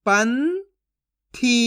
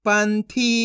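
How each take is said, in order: First: पंथी split as "पं", long pause, "थी"; syllable by syllable. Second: Said in the usual way. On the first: Shown as a demonstration. Teacher sounds out Panthi for learners, syllable by syllable. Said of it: "एक एक अक्षर का उच्चारण करके". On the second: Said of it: "तो मिलके बन जाएगा".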